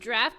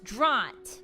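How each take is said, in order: First: The word is said to sound like 'draft'. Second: The word is said not like 'draft'. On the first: The speaker calls it wrong. "Pronounced draft" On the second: The speaker calls it right. "No, it's draught"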